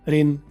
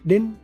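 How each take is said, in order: First: The reduced word begins with an R sound. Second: The reduced word begins with a D sound. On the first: "ये भी ठीक है" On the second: "ये भी ठीक है"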